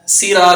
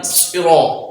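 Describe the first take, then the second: First: سرا with a thin seen; wrong light saad. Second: سرا with a heavy hissing saad; thick saad with a hiss. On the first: Teacher showing the wrong thin sound. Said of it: "سرا نہیں". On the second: Teacher showing the correct heavy saad. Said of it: "اس کو پر پڑھیں گے". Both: Shown as a demonstration.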